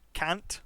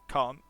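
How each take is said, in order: First: It is said with an American accent. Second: It is said with a British accent. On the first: The speaker calls it right. "a lot better" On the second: The speaker calls it wrong. "for mistaken pronunciations"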